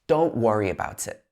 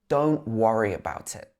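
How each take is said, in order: First: The t at the end of don't is dropped. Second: The t at the end of don't is dropped.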